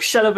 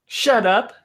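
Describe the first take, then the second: First: Teasing "Shut up", a bit louder; playful shut up. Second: Playful shut up. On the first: Lilith to Margot, teasing and brushing it off. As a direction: shove it off with a laugh. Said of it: "she's like". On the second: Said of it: "she's like, Shut up again". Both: Acted.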